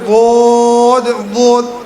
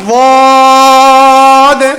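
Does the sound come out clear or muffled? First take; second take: muffled; clear. First: It is said with the mouth closed. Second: It is said with the mouth open. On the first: The speaker calls it wrong. "আমি যদি মুখটা বন্ধ করে বোধ বোধ, এটা হবে? আওয়াজটাও শুনতে কেমন যেন লাগে" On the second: The speaker calls it right. "দত বলার সময় কি মুখটাকে একটু খুলতে হবে।"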